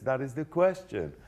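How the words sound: The stress falls on the word question. The speaker calls it right. "You've got to hit question"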